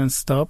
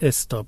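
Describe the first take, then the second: First: The word starts directly with the s sound. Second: A short e vowel comes before the s. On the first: The speaker calls it right. "انگلیسی میگن استاپ" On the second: The speaker calls it wrong. "ما میگیم استاپ، یه ام زبیر"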